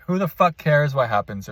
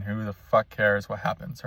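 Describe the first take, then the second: First: "the" leaned on with a falling end; emphatic repeat. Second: Said in the usual way. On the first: Shown as a demonstration. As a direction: land on "the" and let it fall.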